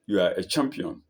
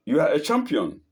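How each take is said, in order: First: Subdued echo of a call; echoed answer. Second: Higher, lightly raised calling voice; mild scream. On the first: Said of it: "The voice answers". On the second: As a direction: call it out to the mountain. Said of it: "the man screams". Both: A narrator's reading.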